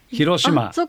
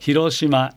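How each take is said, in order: First: The pitch is high in the middle, then falls. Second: The pitch rises and stays level without falling. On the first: The speaker calls it wrong. "これは中二高ですね" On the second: The speaker calls it right. "平板ですね"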